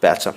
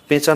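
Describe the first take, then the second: First: The first vowel is an open ae sound. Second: The first vowel is a close e sound. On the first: The speaker calls it right. "পড়ব" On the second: The speaker calls it wrong. "না পড়ে"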